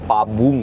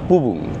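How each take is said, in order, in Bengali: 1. প্রথম অক্ষরে 'a' স্বরধ্বনি আছে। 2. দুটো অক্ষরেই 'u' স্বরধ্বনি আছে। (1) "সেগুলো ঠিক নয়" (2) "সঠিক উচ্চারণ"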